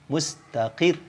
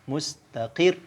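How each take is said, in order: Both takes have the same delivery.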